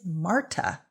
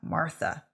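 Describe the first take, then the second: First: The middle consonant is a plain t sound. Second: The middle consonant is a th sound. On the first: The speaker calls it right. "'Tis Marta" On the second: The speaker calls it wrong. "not Martha. No H therein"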